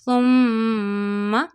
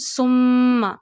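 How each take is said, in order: First: The th sound is soft and gentle. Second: The th sound is hard and whistling. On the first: The speaker calls it right. "Read tha very softly" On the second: The speaker calls it wrong. "you will not produce the hard voice or whistle sound voice in tha"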